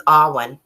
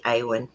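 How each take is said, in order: First: "Alwyn" said AHL-win, with the L; "Alwyn" with a clear L, AHL-win; standard pronunciation. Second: "Awen" said AY-wen, no L; "Awen" with a long A, AY-wen; personal pronunciation. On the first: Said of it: "Paul says Alwyn". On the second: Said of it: "I like to say Awen". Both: Shown as a demonstration.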